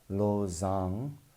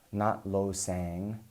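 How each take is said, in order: First: The second syllable starts with a z sound. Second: The second syllable starts with an s sound. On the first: The speaker calls it right. "lo zang, not lo sang" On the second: The speaker calls it wrong.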